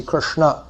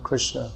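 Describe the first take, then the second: First: Krishna ending on a full open a; proper Sanskrit Krishna. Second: Said in the usual way. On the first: Shown as a demonstration. Teacher showing Sanskrit pronunciation, Krishna with full last vowel. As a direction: give Krishna a clear, rising final vowel. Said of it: "properly according to Sanskrit pronunciation". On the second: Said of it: "most of us don't pronounce Krishna properly".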